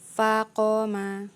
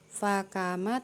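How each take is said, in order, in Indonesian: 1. Konsonan tengahnya q belakang yang dalam. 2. Konsonan tengahnya k depan biasa.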